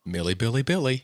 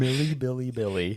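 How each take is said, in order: First: Sing-song. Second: Playful high sing-song name. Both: Pretend. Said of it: "most fun way to say her name".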